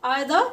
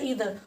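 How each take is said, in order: First: The first vowel sounds like 'eye'. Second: The first vowel sounds like 'ee'. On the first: "इसको आयदर भी पढ़ा जाता है" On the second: "दोनों ही pronunciation इसकी ठीक है"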